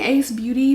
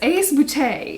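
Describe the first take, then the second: First: The last word is said like English 'beauty'. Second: The last word is said like French 'beauté'. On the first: The speaker calls it wrong. "I've been saying this wrong" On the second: The speaker calls it right. "is how they pronounce it"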